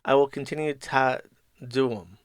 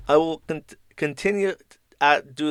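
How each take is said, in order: First: Mock British with the T in "continue" and "to" swallowed; put-on British glottal stops; British accent, dropped T's. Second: Put-on tentative British accent, halting over the T's; mock British accent. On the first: Shown as a demonstration. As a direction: leave out the T's like a bad Brit. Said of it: "I just don't pronounce the T's". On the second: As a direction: stumble through a put-on British voice. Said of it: "they do say they T with the first one".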